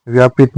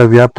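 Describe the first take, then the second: First: व्यापित with a short i before the final t; wrong form with extra i. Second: व्याप्त with p and t run together; correct joined pt. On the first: Teacher showing learners a misspelt word, व्यापित with added i. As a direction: say व्यापित in three beats, vya-pi-t. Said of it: "व्याप्त होता है". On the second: Teacher giving learners the correct word, व्याप्त with joined pt. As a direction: say व्याप्त with no vowel between p and t. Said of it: "व्यापित नहीं होता". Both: Shown as a demonstration.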